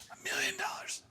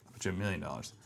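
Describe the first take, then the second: First: Whispered aside. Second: Said in the usual way. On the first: Real, not acted. Coder betting the fix fails whispers it again. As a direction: repeat "million dollars" in a whisper.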